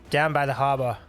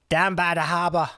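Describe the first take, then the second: First: It is said in the speaker's ordinary accent. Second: It is said in a put-on regional accent.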